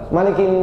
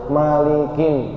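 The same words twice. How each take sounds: First: The nasal sound is rushed and cut short. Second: The nasal sound is held for three beats. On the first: The speaker calls it wrong. "Nggak boleh bacanya gini Pak" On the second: The speaker calls it right. "harusnya malikin. Satu, dua, tiga"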